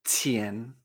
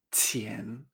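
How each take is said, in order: First: "qian" lower and softer, rising like "chen"; Chinese qian, second tone. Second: "qian" quieter, rising, said as "chien"; Chinese qian repeated. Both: Shown as a demonstration. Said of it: "Se pronuncia".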